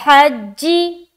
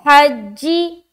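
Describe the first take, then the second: No difference in how they are said.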